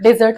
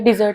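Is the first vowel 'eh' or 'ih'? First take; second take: eh; ih. First: The first vowel sounds like 'eh'. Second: The first vowel sounds like 'ih'. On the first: The speaker calls it wrong. "बरेच जण डेझर्ट म्हणतात" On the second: The speaker calls it right. "त्याचा actual उच्चार डिझर्ट असा आहे"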